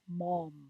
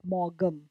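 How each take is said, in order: First: The name is said without any g sound. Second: The name is said with a g sound. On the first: The speaker calls it right. "it is pronounced as Mom" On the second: The speaker calls it wrong. "not Morgum"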